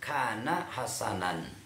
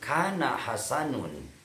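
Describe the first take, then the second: First: The last word ends with the sound -an. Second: The last word ends with the sound -un. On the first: The speaker calls it right. "Seharusnya saya mem, uh, membacakan kana hasanan" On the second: The speaker calls it wrong. "saya bacakan kana hasanun. Itu merupakan uh, apa ketidakhati-hatian saya"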